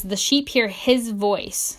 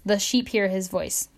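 First: Each word drawn out slowly, with weight; slow emphatic quote. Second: Said in the usual way. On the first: Shown as a demonstration. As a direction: read the verse slowly, letting it sink in. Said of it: "But it says". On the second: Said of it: "or it says".

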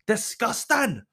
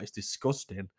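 First: Disgusting! thrown out high and sharp; exclaimed. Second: Said in the usual way. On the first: Real, not acted. Angry at the mother-in-law's view, she exclaims it. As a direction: burst out with Disgusting!.

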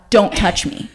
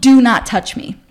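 First: Said in the usual way. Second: "Do not touch me" with each word separate and firm; emphatic warning. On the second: Retold or imitated. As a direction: hit "Do not" harder, as a final warning.

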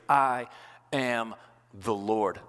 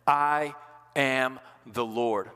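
First: "I" then a pause, "am the Lord" slowed and low; slow, weighty. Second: I ... am the Lord, paused after I and slowed; slow, weighty. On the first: Pastor repeating the key phrase, slow and weighty. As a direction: stretch "am the Lord" after a held "I". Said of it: "That phrase". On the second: Pastor dwelling on God's words to Moses, slow and weighty. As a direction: hold after "I", then lay down "am the Lord" slowly. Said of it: "I would underline that". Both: Shown as a demonstration.

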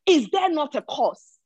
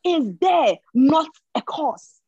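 First: Said in the usual way. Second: Is there not a cause? drawn out slow and louder; slow, weighty rhetorical question; slow emphatic question. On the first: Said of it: "Another version says". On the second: Shown as a demonstration. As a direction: lean hard on every word of Is there not a cause?. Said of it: "I want us to take note of that".

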